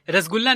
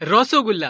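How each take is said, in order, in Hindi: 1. इसे 'rasgulla' की तरह बोला जाता है, बिना 'o' की आवाज़ के। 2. इसे 'rasogulla' की तरह बोला जाता है, 'o' की आवाज़ के साथ। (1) "रसगुल्ला नहीं"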